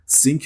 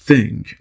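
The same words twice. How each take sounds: First: The first sound lacks the tongue between the teeth. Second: The first sound has the tongue between the teeth. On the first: The speaker calls it wrong. "think نمیگم" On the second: The speaker calls it right. "زبون رو بذارید بین دندوناتون و هوا رو عبور بدید"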